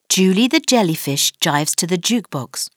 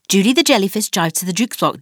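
First: The sentence is spoken at a fast pace. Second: The sentence is spoken at a very fast pace. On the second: "Go on, faster!"

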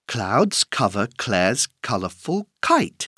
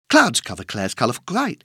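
First: The sentence is spoken at a fast pace. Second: The sentence is spoken at a very fast pace. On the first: "plus vite!" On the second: "Encore plus vite!"

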